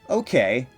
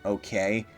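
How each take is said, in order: First: It sounds content and accepting. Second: It sounds dismissive and unenthusiastic. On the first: The thing is acceptable, not disliked. "It's me saying it's fine" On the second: The thing is mildly disliked. "it's not me saying eh"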